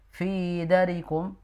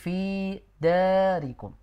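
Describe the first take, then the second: First: The vowel is cut short. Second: The vowel is held long. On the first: The speaker calls it wrong. "Nadanya tadi pendek" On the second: The speaker calls it right.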